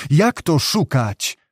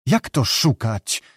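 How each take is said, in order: First: Slow, more insistent question in mild amazement; astonished repeat. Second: Slow, understated astonished question; astonished murmur. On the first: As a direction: repeat it slowly, letting the disbelief rise. (powolne, nieco mocniejsze zdumienie) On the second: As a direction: ask slowly in mild disbelief, held back. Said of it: "szepnął Judym ze zdumieniem". (powściągliwe, powolne zdumienie) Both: A narrator's reading.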